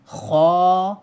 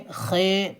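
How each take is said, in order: First: The letter name is said in an Arabic accent. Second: The letter name is said in an Urdu accent.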